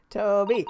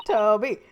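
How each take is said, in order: First: Calling a dog, falling tune. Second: Louder call, rising at the end. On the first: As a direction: call out to the dog. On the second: Calling the dog again. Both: Acted.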